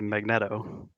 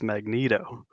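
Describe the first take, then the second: First: The middle E is a short vowel. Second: The middle E is a long vowel. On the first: "If it were two T's" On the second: "There are also not two T's making the E a short vowel sound"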